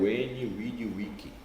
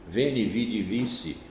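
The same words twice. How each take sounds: First: It uses the newer restored Latin pronunciation. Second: It uses the older traditional Latin pronunciation. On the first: "agora é o veni vidi vici" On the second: "tão bonito"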